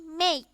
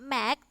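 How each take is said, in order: First: The word is said with the English vowel sound. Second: The word is read out just as it is spelled. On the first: The speaker calls it right. "tapi make" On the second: The speaker calls it wrong. "how to read it is not make"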